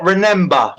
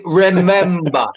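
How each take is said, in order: First: "remember" said with an N, like "remenber"; mock the mistake: "remember" with an N in the middle; wrong pronunciation. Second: "remember" said properly with a clear M; correct pronunciation. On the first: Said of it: "It's fucking remember". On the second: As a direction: stress the M sound in "remember". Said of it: "I'm just saying it's not remember". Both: Shown as a demonstration.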